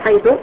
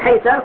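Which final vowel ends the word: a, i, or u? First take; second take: u; a. First: The word ends with a final u vowel. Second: The word ends with a final a vowel. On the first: "تبنيها على الضم" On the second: "على الفتح"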